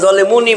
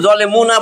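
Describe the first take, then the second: First: The word ends with a final i vowel. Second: The word ends with a final a vowel. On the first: "জলে মুনি বলবেন না" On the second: "থামলে আপনি কিন্তু জলে মুনা বলবেন না"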